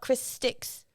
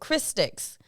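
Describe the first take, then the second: First: The stress falls on the second word. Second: The stress falls on the first word. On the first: The name is about the drumsticks. The speaker calls it wrong. "not Chris Sticks" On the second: The name is about the person. The speaker calls it right. "like Christy"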